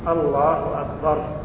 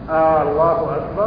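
First: Neither word has a drawn-out vowel. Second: The first vowel of Allah is drawn out. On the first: God is the greatest. The speaker calls it right. "الله أكبر كذا" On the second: It turns the phrase into a question. The speaker calls it wrong. "هذا استفهام"

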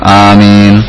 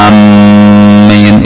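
First: The first vowel is long and the m single. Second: The m sound is doubled and held. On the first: "Yang kedua madduha, seperti yang biasa kita kenal" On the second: "mimnya tidak ditasdid, ya. Jadi jangan sampai amin, itu salah"

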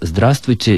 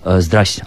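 First: All sounds are pronounced in full. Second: Sounds are dropped, giving a shortened form. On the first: This is the full literary form. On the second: This is a colloquial form.

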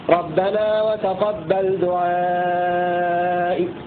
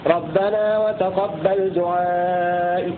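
First: The long vowel is held for five counts. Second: The long vowel is held for four counts. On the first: "مع فويق التوسط" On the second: "الروم على التوسط 4 حركات"

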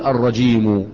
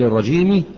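First: The word ends with a u vowel. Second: The word ends with an i vowel. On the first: It is a separate predicate expressing blame. "قطعنا الخبر، للايه؟ للذم" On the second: It is an ordinary adjective describing the noun. "الاصل الرجيم صحيح"

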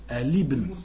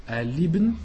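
Both takes have the same delivery.

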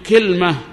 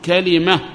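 First: First vowel i, middle consonant has no vowel. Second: First vowel a, middle consonant takes i. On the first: "كسر الكاف مع سكون الوسط الحرف الثاني" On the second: "فتح الكاف مع كسر الوسط"

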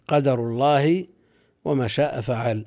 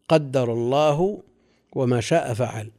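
First: The d in the first word is single. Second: The d in the first word is doubled.

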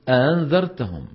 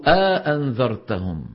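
First: The second glottal stop is softened. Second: A long vowel separates two full glottal stops. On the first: "يسهل الثانية" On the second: "يدخل بين الهمزتين ألفا"

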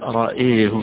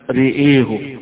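First: Only the second vowel leans toward e. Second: Both vowels lean fully toward e. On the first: "وحيميل الهمزة لوحدها" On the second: "بإمالتين، إمالة الراء وإمالة الياء أيضا"

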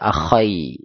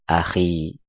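First: The kh is followed by an ai vowel. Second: The kh is followed by a plain i vowel. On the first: The speaker calls it wrong. "Enggak bisa dibaca akhai, nanti artinya beda lagi" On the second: The speaker calls it right. "maka dibaca akhi"

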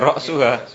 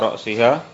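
First: The vowel after the s is u. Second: The vowel after the s is i. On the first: Even the head is eaten, as a new clause. "ra'suha sebagai apa? ... sebagai mubtada" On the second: Eaten up to the head. "hatta ra'siha baca majrur"

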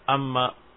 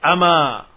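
First: The m sound is held long and doubled. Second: The m sound is short and single. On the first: The speaker calls it wrong. "Bukan amma" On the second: The speaker calls it right. "tanpa ada tasdid, mukhaffafah"

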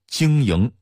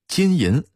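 First: It is said in a Datong dialect accent. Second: It is said in standard Mandarin pronunciation.

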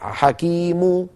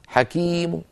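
First: The final vowel is full and loud. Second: The final vowel is faint and lowered. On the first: The speaker calls it wrong. "ولا نقول حكيم هكذا ضم كبيرة" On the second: The speaker calls it right. "هكذا ضم صوتها منخفض"

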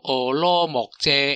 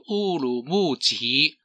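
First: The name is pronounced with Taiwanese sounds. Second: The name is pronounced with Mandarin sounds. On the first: "台语其实应该读做俄罗木遮" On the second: "国语应该读做乌鲁木齐"

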